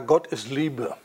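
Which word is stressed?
Liebe. The stress falls on the word Liebe. Love itself is made the defining idea. The speaker calls it wrong. "Und dann ist die Betonung falsch"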